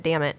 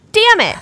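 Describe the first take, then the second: First: Said in the usual way. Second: Put-on high, louder proud little-kid echo; child repeating it. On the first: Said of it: "Cody said". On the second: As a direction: chirp it back like a proud toddler. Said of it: "She was like".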